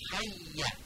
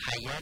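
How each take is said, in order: First: حیه with a held, doubled y; correct doubled y. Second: حیا without the doubled y; wrong pronunciation. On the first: Teacher shows the right form, doubled y in حیه. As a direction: say حیه leaning on the y, short final vowel. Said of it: "یا مشدد هم داریم". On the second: Teacher shows students the mistake, undoubled حیا. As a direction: say حیا with a single y and long final a. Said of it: "حیا نیست". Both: Shown as a demonstration.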